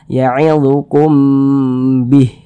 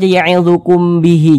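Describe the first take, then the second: First: The last word ends in a bare h sound. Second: The last word ends with an i vowel. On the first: The speaker calls it right. "Huruf H ini kita sukunkan" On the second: The speaker calls it wrong. "Jangan dibaca ya'idzukum bihi"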